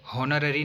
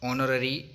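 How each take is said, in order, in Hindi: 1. यह शब्द एक सुनाई देने वाली h ध्वनि से शुरू होता है। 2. यह शब्द स्वर से शुरू होता है, इसमें h नहीं है। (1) "हॉनररी नहीं बोलेंगे क्योंकि ये साउंड गलत हो जाएगा" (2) "ऑनररी साउंड है"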